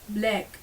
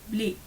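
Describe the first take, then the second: First: The vowel is an open 'a' sound. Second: The vowel is closer to an 'e' sound. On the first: "the A is usually uh, pronounced as E" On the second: "will become more bleak"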